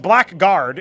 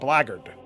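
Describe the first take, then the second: First: Said as spelled, like black guard. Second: Said in a reduced form, like blaggard. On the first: The speaker calls it wrong. "is how you would pronounce would spell it" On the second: The speaker calls it right. "but it's pronounced blackguard"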